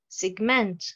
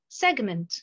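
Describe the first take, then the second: First: The stress is on the second syllable. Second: The stress is on the first syllable. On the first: It is a verb. "la première colonne, pratiquement, j'ai l'accentuation sur la deuxième syllabe" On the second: It is a noun. "la deuxième colonne, nous avons l'accentuation sur la première syllabe"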